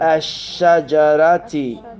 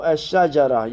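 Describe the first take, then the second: First: The word ends with a final short vowel. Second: The word ends without the final vowel. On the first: "makes the noun have a kasra" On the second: "You don't say the last vowel"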